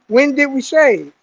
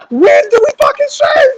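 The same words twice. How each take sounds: First: Measured imitation of a sergeant; mildly stern inspection question; stern sergeant's question. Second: High, loud yell; mock furious sergeant. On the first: Sergeant inspecting a recruit's face, mildly stern. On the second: Sergeant repeating his question to a clueless recruit, furious mock shout. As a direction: scream it like an exasperated drill sergeant.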